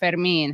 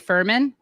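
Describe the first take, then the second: First: The surname is said with a Spanish accent. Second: The surname is said with an English accent. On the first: "how you pronounce my last name with the Spanish accent" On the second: "what do people say?"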